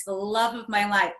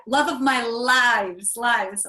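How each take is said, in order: First: Said in the usual way. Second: Slow, louder, leaning hard on lives; stress on lives. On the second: Shown as a demonstration. Joking her husband is love of many lives, lives stressed. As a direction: draw out lives so the plural lands.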